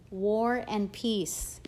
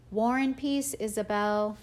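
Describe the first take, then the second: First: "War and Peace" drawn out slowly, each word stressed; slow, emphatic repeat. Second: Dad calling back while walking away; called out. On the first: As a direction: savour the words as a teasing point made. Dad repeats the title, pointing. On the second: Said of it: "he called out". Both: A narrator's reading.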